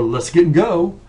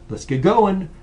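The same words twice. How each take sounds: First: "Let's get and go." run together, final t dropped; loud sloppy "Let's get and go." without the t; slurred demo. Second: "Let's get going." with every syllable clear, t sounded; careful pronunciation. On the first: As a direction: slur "get going" into "get and go". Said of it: "So don't say". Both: Shown as a demonstration.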